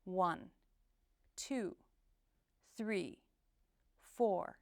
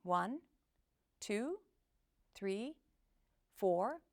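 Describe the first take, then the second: First: "One, two, three, four" each number dipping firmly downward; downward inflection. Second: "one, two, three, four" each rising like a question; upward inflection. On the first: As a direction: count with a falling tone on every number, pausing between. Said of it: "final sound of each number dips downward". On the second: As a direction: count with every number lifting at the end. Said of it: "instead of". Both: Shown as a demonstration.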